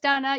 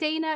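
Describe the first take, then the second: First: The name is said the Czech heritage way. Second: The name is said the usual American way. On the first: The speaker calls it right. "it's Donna" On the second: The speaker calls it wrong. "it's not Dana"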